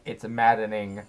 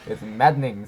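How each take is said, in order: First: Every syllable of maddening is said out clearly. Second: The middle of maddening is swallowed and reduced. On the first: "if you say it like that, though, it just doesn't sound natural" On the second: "you don't even hear the E and the N"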